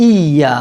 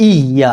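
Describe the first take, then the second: The two takes are said the same way.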